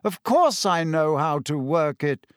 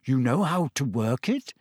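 First: Brisk dismissal, falling at the end; mildly impatient, emphatic answer. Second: Guarded, rising question; wary question, voice held back; suspicious. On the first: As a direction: brush the doubt off, leaning on "course". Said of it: "waving his hand impatiently". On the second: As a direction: ask it doubtfully, ending on a rise. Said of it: "Harry said suspiciously". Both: A narrator's reading.

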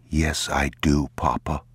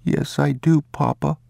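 First: Said in the usual way. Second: Put-on high child's voice repeating; little boy. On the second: The boy repeats the words his father gave him, in a high child's voice. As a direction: echo it like an obedient boy.

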